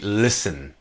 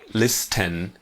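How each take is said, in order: First: The word is said without a t sound. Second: The word is said with a t sound. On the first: The speaker calls it right. "the pronunciation is really listen" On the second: The speaker calls it wrong. "not listen"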